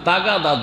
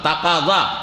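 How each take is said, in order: First: The middle consonant is a plain g sound. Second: The middle consonant is a deep throaty k. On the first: This is the everyday local form of the word. "জদটাকে দা করে দিয়েছে" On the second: This is the original form of the borrowed word. "তাগাদা আরবি শব্দ"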